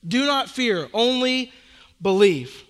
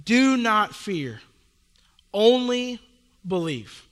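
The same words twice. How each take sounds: First: "not" stressed in "Do not fear", "believe" landing firmly; repeated with stress on not. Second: Slow, weighty "Do not fear, only believe" with a pause before "believe"; slow emphatic quote. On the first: Pastor repeating Jesus' words for emphasis, firmer. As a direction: hit "not", then land "believe". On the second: Pastor quoting Jesus to the church, slow and weighty. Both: Shown as a demonstration. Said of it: "get this, he says this".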